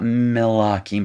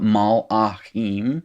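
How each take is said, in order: First: The first syllable has an 'i' vowel. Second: The first syllable has an 'a' vowel. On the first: The speaker calls it wrong. "not milakim" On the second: The speaker calls it right. "but mal achim"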